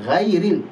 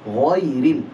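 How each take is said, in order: First: The gh sound is thin and light. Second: The gh sound is thick and heavy. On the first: The speaker calls it wrong. "kesalahan yang sering terjadi juga, ... Jadi tipis" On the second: The speaker calls it right. "Jadi harusnya"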